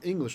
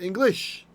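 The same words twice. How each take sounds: First: The stress is on the first syllable. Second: The stress is on the last syllable. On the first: "In English, we like it at the beginning" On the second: "if it was Hebrew, we'd call it English"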